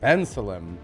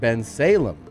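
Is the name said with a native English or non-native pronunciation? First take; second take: native English; non-native. First: It is said with a native English pronunciation. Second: It is said with a non-native, foreign-sounding pronunciation.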